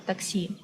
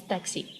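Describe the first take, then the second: First: TAXI said the Russian way, "tahk-SEE"; Russian pronunciation. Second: Said in the usual way. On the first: Shown as a demonstration. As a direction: say "taxi" with an ah and the stress at the end. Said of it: "Russian word taxi". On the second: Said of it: "which means taxi".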